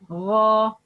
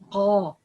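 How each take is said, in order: First: It starts with a throaty fricative ghain. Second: It starts with a hard stop like qaf. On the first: The speaker calls it right. "that's wrong, but" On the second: The speaker calls it wrong. "a lot of people uh, pronounce غا like قا"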